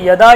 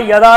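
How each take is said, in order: Both takes have the same delivery.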